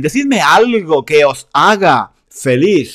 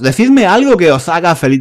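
First: "haga" slowed and set apart; stress on haga. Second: Said in the usual way. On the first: Shown as a demonstration. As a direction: spell out the sentence slowly, leaning on "haga".

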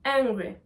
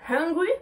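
First: Angry starting straight on the vowel. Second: Hungry with an audible breathed h at the start. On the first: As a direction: open angry with no breath before it. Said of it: "le deuxième mot qui est angry". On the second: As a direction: puff out the h that opens hungry. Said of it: "pour pouvoir prononcer la lettre H". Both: Shown as a demonstration.

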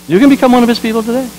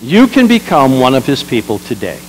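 First: Higher, faster, pressing the invitation home; fervent. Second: Said in the usual way. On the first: Acted. Preacher to the congregation, quick and fervent. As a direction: urge it, quicker and up high.

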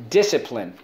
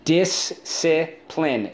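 First: Said in the usual way. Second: "Discipline" slowly as dis, ci, pline, pitched up; slow, higher breakdown of "Discipline"; syllable by syllable. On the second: Shown as a demonstration. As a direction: sound out "Discipline" in three beats. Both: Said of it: "Let's go".

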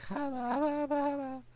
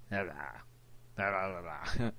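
First: Very high pre-puberty squeak; high childish voice. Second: Low post-puberty voice; deep voice. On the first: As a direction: imitate a squeaky kid voice. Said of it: "my voice was like". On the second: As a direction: drop into a deep grown voice. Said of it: "now it's like". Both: Retold or imitated.

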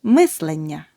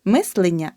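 First: Мислення with a clear е after л; correct vowel demo. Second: Мислення with и after л; the mistake in мислення, и for е; wrong vowel demo. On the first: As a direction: say мислення as "myslennia". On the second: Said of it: "Не". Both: Shown as a demonstration.

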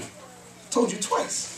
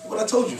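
First: Whispered slowly, almost unvoiced. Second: Said in the usual way. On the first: Shown as a demonstration. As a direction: lean in and breathe it slowly like a secret. Repeats the point, then whispers it.

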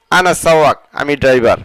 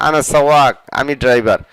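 Both takes have the same delivery.

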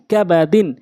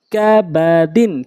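First: Short vowels, syllables run together; quick reading. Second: Drawn-out syllable by syllable reading; slow demo. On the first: Teacher showing how it must be read, quickly. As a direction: read it briskly as one word. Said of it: "দ্রুতটা উচ্চারণ করতে হবে". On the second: Teacher showing learners the word first, slowly. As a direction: stretch each syllable for learners. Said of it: "প্রথমে আমি slow বলছি". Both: Shown as a demonstration.

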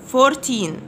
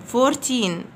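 No difference in how they are said.

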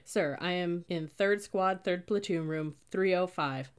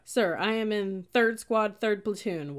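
First: Slow, measured recital; recited thought. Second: Loud, high, slow recruit's answer; shouted report. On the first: Cadet rehearses assignment in their head, slow recital. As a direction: repeat it carefully like a memorized report. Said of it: "Random thoughts whipped through my mind". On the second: Cadet answers sergeant's squad question, shouting. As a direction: shout each unit out stiffly. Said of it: "enough for me to shout". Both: A narrator's reading.

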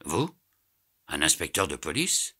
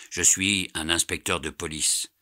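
First: Astonished echo, rising sharply at each end; incredulous question. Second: Said in the usual way. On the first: A narrator's reading. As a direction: question it in disbelief. Astonished echo of Fix's revelation. (question incrédule)

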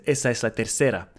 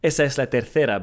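First: "tercera" with an S sound for the c. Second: "tercera" with a TH sound for the c; Spanish TH in tercera. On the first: Learner copying the automated voice, S in "tercera". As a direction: say "tercera" as tersera. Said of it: "if you listen to the automated voice". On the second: Learner copying the show's actress, TH in "tercera". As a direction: say "tercera" as terthera. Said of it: "she says". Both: Retold or imitated.

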